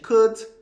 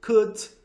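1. A consoante final é claramente soltada. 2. A consoante final é claramente soltada.

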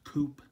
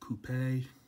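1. La palabra se dice a la manera inglesa. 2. La palabra se dice a la manera francesa. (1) "In English, that's pronounced coupe" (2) "not coupe. Maybe in France they do that"

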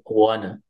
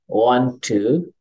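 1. Kedua kata menyatu menjadi satu kata tereduksi. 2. Kedua kata diucapkan penuh dan terpisah.

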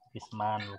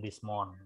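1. Vokal dalam month terdengar seperti 'ah'. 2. Vokal dalam month terdengar seperti 'o'. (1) "man ah ya" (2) "bukan mon ya"

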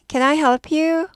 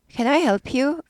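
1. 'you'에서 끝에 목소리가 올라가요. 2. 'you'에서 끝에 목소리가 올라가요.

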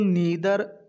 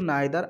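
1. पहला स्वर 'ee' जैसा सुनाई देता है। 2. पहला स्वर 'eye' जैसा सुनाई देता है। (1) "बहुत लोग नीदर और ईदर बोलते हैं" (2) "मैं इसको नाइदर आइदर बोलता हूँ"

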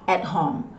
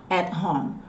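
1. O T no final de 'at' é omitido. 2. O T no final de 'at' é omitido.

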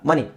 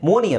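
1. ಮೊದಲ ಸ್ವರ 'uh' ತರ ಹೇಳ್ತಾರೆ. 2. ಮೊದಲ ಸ್ವರ 'o' ತರ ಹೇಳ್ತಾರೆ. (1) "ಓ ಅಂತ ಬಂದಾಗ ಅ ಅಂತ ಸೌಂಡ್ ಬರುತ್ತೆ" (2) "money alla"

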